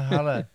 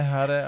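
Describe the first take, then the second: First: The middle consonant is an l sound. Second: The middle consonant is an r sound. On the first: The speaker calls it wrong. "ale Hale" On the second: The speaker calls it right. "Zpívají ne Hare"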